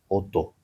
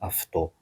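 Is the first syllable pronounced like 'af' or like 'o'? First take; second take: o; af. First: The first vowel sounds like 'o'. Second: The first syllable sounds like 'af'. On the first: This is the English pronunciation. The speaker calls it right. "this A U becomes O" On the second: This is the Greek pronunciation. The speaker calls it wrong.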